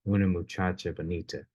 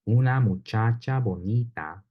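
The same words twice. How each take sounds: First: The unstressed vowels are reduced to an uh sound. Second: Every unstressed vowel keeps its full, clear sound. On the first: The speaker calls it wrong. "we often turn those vowels into uh sounds" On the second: The speaker calls it right. "instead of saying"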